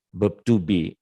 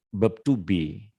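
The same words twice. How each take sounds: The two takes are said the same way.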